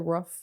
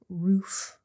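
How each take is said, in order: First: The word has a short vowel, like ruff. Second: The word has a long oo vowel, like roof. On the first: This is how people from New Orleans say it. "I say rough, like a dog" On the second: This is how others say it. "I don't say roof"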